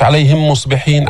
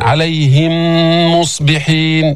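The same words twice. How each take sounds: First: عليهم مصبحين with the miims rushed, no nasal hold; no ghunna. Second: عليهم مصبحين with the merged miim held nasally for two beats; ghunna held. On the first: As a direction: skip the two-beat ghunna in عليهم مصبحين. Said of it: "مش عليهم مصبحين". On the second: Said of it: "بدك توقف حركتين تجيب الغنة". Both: Shown as a demonstration.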